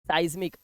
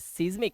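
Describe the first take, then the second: First: The first vowel sounds like 'eye'. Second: The first vowel sounds like 'ee'. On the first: The speaker calls it right. "आई की आवाज आ रही है" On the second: The speaker calls it wrong. "नहीं"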